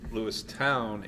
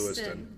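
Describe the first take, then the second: First: The name ends with a 'town' sound. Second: The name ends with a short 'ton' sound. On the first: The speaker is from the town. "if you're from Lewistown" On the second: The speaker is not from the town. "because it's just faster to say"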